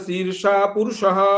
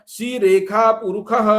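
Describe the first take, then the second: First: Purushah is said with a plain sh sound. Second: Purushah is said with a kh sound. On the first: This is the usual recitation of the mantra. "आरंभ में पठित है" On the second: This is how the Madhyandina branch of the Yajurveda recites it. "पुरुषः के सकार को ख और शीर्षा को सी रेखा"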